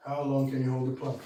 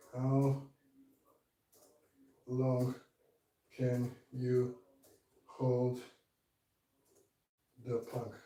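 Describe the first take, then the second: First: Said in the usual way. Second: Strained, broken words mid-plank; shaking with effort. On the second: Real, not acted. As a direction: squeeze each word out while holding a plank. Asks while holding the plank.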